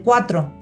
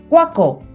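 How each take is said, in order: First: The middle consonants are said as 'tr'. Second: The middle consonants are replaced by a 'k' sound. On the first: The speaker calls it right. "es correcto decir cuatro" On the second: The speaker calls it wrong. "él me decía, cuaco, en lugar de cuatro"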